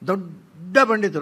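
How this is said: The first word is stretched with a gap, mocking. The person is not really a great scholar. "ಅದು ದೋ ಆದಮೇಲೆ ಡಾ ಮಧ್ಯದಲ್ಲಿ space ಯಾಕೆ"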